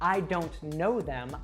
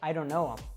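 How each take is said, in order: First: The 'th' sound in 'them' is fully pronounced. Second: The 'th' sound is dropped, leaving 'um'. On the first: "instead of saying" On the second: "I would say"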